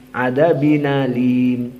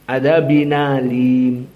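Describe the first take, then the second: No difference in how they are said.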